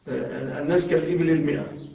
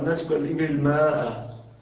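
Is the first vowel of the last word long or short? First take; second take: short; long. First: The last word has a short first vowel. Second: The last word has a long first vowel. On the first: The speaker calls it right. "الألف مثبتة ولا تنطق" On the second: The speaker calls it wrong. "بعضهم يقرأ"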